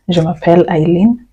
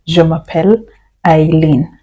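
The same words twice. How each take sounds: First: Said in the usual way. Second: Slow split model. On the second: Shown as a demonstration. Teacher to students, slow split demo. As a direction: pause before the name, each part set apart. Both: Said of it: "I can say".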